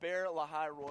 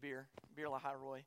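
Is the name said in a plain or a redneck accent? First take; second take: plain; redneck. First: It is said in a plain, neutral accent. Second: It is said in a rural Southern drawl.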